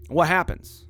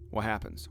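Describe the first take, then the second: First: Said in the usual way. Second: What happens softer and lower; quiet rhetorical repeat. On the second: Real, not acted. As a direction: drop to a hush on the repeat.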